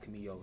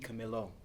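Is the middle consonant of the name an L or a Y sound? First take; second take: Y; L. First: The middle consonant is a Y sound. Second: The middle consonant is an L sound. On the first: The speaker calls it wrong. "not Camillo. ... I don't know why I put the yo on it" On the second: The speaker calls it right. "He he Camilo"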